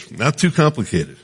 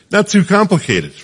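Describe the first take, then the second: First: Said in the usual way. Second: Jumps up high and bright on "Not too complicated", hitting "too"; emphatic exclamation. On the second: Real, not acted. Repeats the phrase for emphasis.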